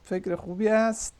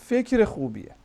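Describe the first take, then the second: First: The phrase ends with a separate word 'ast'. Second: The ending is reduced and joined to the word. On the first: This is the full formal form. "आस्त है असल में" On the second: This is the everyday spoken form. "Spoken अंदाज में बोलते हैं"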